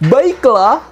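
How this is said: It is said at a high pitch. "Coba tinggi"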